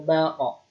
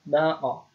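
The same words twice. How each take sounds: First: The final bounce sounds like o. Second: The same.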